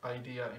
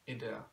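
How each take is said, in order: First: The name is pronounced with English sounds. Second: The name is pronounced with Czech sounds. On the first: "or Idea in English" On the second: "but in Czech you would uh, say it as Idea"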